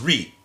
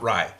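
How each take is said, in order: First: The syllable has a short 'ree'-like vowel. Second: The syllable has a long 'rye' diphthong. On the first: The speaker calls it right. "the right way, which is Ri" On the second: The speaker calls it wrong. "not Rye"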